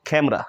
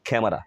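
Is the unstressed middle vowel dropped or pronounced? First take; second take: dropped; pronounced. First: The middle vowel is silent. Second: The middle vowel is fully pronounced. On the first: "এ ভাওয়ালটাকে silent করে দেই" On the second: "আমরা সব সময় বলি ক্যামেরা"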